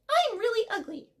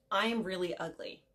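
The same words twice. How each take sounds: First: It is said in a funny put-on voice. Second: It is said in a normal voice.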